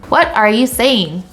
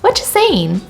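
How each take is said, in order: First: Every word is said separately in full. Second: The words are squeezed tightly into fewer syllables. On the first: "taking the long form" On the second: "compressing it really tightly"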